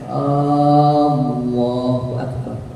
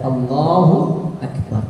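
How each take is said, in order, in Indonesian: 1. Vokal di awal dipanjangkan. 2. Vokal di awal pendek; suku 'la'-nya panjang. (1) "Ada orang memanjangkan alifnya" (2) "Yang dipanjangkan adalah huruf lam pada lafzul jalalah"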